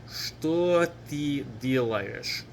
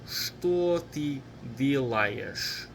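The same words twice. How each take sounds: No difference in how they are said.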